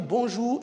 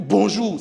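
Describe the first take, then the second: First: Bonjour lifted at the end; rising bonjour. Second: BONJOUR punched out loud; forceful bonjour. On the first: Teacher showing an Ivorian greeting, rising friendly tune. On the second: Teacher contrasting two Ivorian greetings, loud forceful bonjour. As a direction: hit the greeting hard. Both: Shown as a demonstration. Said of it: "c'est pas pareil".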